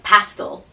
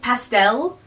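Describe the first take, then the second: First: It is said with a British pronunciation. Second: It is said with a North American pronunciation. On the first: "they say it like pastel" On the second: "I know now that it's like pastel"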